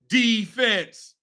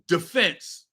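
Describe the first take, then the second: First: The stress is on the first syllable. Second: The stress is on the second syllable. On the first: This is how fans chant it at games. "what you can chant is defense" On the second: This is the standard dictionary pronunciation. "the correct way to pronounce the word is defense"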